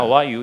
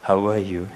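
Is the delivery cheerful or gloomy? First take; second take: cheerful; gloomy. First: It is said in a plain, bright way. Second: It is said in a dark, gloomy way. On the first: "How are you 이러면 되는데" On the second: "음침하게"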